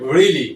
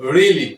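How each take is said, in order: The two takes are said the same way.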